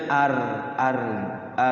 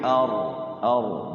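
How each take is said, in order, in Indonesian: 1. Bunyi r-nya ringan dan tipis. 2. Bunyi r-nya berat dan penuh. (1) "tipis ya" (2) "tapi ini ar ar"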